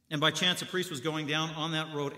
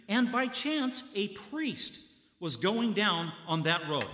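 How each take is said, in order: First: Said in the usual way. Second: First take lifted high on "And", then "was going down on that road" drawn out slowly; a storyteller's teasing build to the priest's arrival; dramatic build-up. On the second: Shown as a demonstration. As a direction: set up the twist with a rising "And by chance" and a slow "going".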